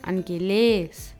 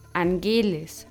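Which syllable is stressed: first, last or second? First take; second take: last; second. First: The stress is on the last syllable. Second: The stress is on the second syllable. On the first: "oder angeles" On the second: "und nicht angeles"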